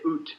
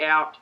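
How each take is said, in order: First: The word is said in a Canadian accent. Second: The word is said in an Australian accent. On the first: "as a Canadian, you say oot" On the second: "we say out"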